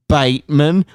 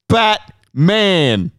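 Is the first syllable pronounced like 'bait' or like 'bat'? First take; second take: Bait; Bat. First: The first syllable sounds like 'bait'. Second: The first syllable sounds like 'bat'. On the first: This is how Victorians say the name. The speaker calls it wrong. "It's pronounced Bateman" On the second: The name is said the way it is spelled. The speaker calls it right. "B-A-T. Bat. M-A-N. Man"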